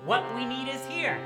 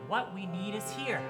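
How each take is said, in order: First: It is called out loudly for attention. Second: It is said a little louder.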